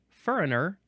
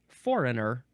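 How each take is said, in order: First: The first syllable sounds like 'fur'. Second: The first syllable sounds like 'for'. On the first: This is how some dialect speakers say it. "in certain dialects will literally say" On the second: This is the usual standard form. "instead of"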